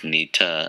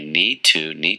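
First: The words are reduced and run together. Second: Both words are said fully and distinctly.

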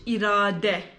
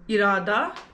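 First: The word ends with a Turkish-style final vowel. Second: The word ends with an Urdu-style final vowel. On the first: "In Turkish" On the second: "Like in Urdu"

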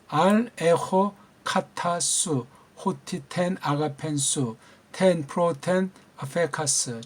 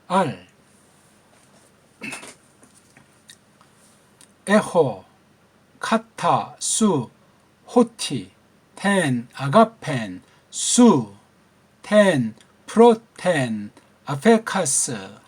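First: The phrase is read at a normal, quicker pace. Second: The phrase is read slowly, word by word. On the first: "한번 읽겠죠" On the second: "천천히 읽어볼까요?"

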